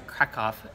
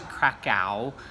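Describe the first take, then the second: First: The name is said with the local Polish pronunciation. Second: The name is said with an American pronunciation. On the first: This is how locals traditionally say it. "traditionally it seems to be pronounced here Krakow" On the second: This is how visitors from the States say it. "we would say it in the States like it's Krakow"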